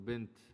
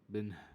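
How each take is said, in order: First: The word ends with a clear t sound. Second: The word ends without a t sound. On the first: The speaker calls it right. "So bint" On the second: The speaker calls it wrong. "you cannot pronounce it as bin"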